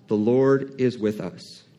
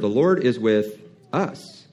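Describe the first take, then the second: First: It is said in a calm, reassuring way. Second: It is said pointedly, as a contrast. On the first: God is with us and will help us. "that sounds very reassuring. It sounds peaceful" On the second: God is with us and not with our enemies. "it may sound a different way if Caleb said it like this"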